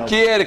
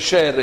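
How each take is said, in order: First: The name begins with a hard K sound. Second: The name begins with an SH sound. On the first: This is how most people say the name. The speaker calls it wrong. "Non è Kier, che tutti chiamano Kier" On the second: This is how the name is said in Denmark. The speaker calls it right. "si chiamerebbe Scher in Danimarca"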